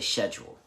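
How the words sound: It is said the British way. "they say schedule"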